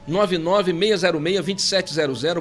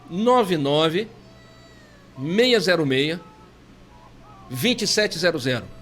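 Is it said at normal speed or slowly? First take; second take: normal speed; slowly. First: It is said at normal speed. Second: It is said slowly.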